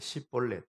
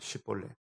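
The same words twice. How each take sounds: First: The word begins with a plain 's' sound. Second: The word begins with a 'sh' sound. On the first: "그냥 S 발음밖에 안 돼. 쉬볼렛. 이렇게 해요" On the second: "쉬볼렛 한번 해봐"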